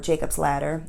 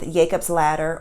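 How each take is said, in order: First: The name starts with a J sound. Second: The name starts without a J sound.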